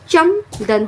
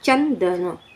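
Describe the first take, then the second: First: The middle nasal is pronounced as an m. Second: The middle nasal is pronounced as an n. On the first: The speaker calls it wrong. "अम की मात्रा का spelling A M लगाएंगे तो यहाँ पे चमदन होगा" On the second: The speaker calls it right. "तब ये प्रोनाउंसिएशन अच्छे से होगा"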